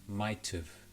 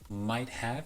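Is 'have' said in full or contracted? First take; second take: contracted; full. First: Have is reduced, sounding like might've. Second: Have is said in full with a clear h.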